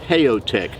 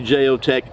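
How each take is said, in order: First: The name begins with an H sound. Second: The name begins with a J sound. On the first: It is read the Spanish way. "in Spanish it might be Geotek" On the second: It is read the English way. "I say Geotek uh, because I'm American"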